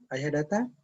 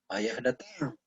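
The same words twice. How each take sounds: First: It is said faster, as a question. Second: It is said at a higher pitch, exclaimed. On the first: "dengan tanda tanya ya, dengan tempo yang lebih cepat" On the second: "ada tanda seru diucapkan lebih tinggi"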